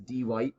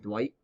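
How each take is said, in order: First: The name is split into two separate parts. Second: The name is said as one smooth syllable. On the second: "instead of saying Dwight"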